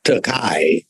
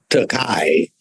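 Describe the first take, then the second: First: The 'ei' gets a Germanic pronunciation. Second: The 'ei' gets a Germanic pronunciation.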